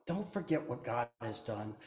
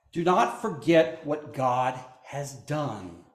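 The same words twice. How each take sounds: First: Soft repeat. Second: Slow, with "not" leaned on; stress on not. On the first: Preacher repeating the warning, softer hushed echo. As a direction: let "Don't forget" fall to a hushed echo. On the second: Preacher warning the congregation, slow stress on "not". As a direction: drive home "not" slowly and firmly. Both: Shown as a demonstration.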